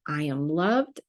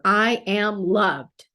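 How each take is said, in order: First: It is said with a questioning, rising tune. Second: It is said with a firm, exclaiming tune. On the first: The speaker doubts being loved. The speaker calls it wrong. "quit putting a question mark" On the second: The speaker is certain of being loved. The speaker calls it right. "put an exclamation point instead"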